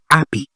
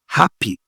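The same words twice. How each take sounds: First: The starting h sound is dropped. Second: The starting h sound is pronounced. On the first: The speaker calls it wrong. "on ne dit pas happy" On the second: The speaker calls it right. "on dit ha, happy"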